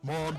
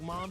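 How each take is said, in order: First: It is said in a put-on, very deep voice. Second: It is said in an ordinary, higher voice. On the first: The speaker calls it right. "His Chris C C H voice" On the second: The speaker calls it wrong. "No, I'm sorry"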